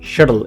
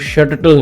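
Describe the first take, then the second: First: The middle t is said once, short. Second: The middle t is held and doubled. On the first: The speaker calls it right. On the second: The speaker calls it wrong.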